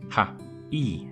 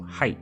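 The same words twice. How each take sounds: First: The two syllables are said separately, with a gap. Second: The two syllables are merged into one sound. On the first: "The word hai is actually pronounced ha-I" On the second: "these syllables tend to merge"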